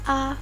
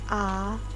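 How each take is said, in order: First: The syllable is short with no tone. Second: The pitch rises from low to middle. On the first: "tidak memiliki nada" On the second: "Nada dua yaitu mengeluarkan suara dari nada rendah menuju nada tengah"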